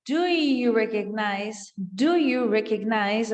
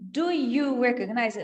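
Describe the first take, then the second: First: Slow, sounds joined together; linked sounds. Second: Separated words, each one apart. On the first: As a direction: glide the words into each other. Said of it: "Ele junta os sons". (sons juntos, devagar) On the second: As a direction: say each word on its own, unlinked. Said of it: "Ao invés de ele dizer só". (palavra por palavra, separado) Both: Shown as a demonstration.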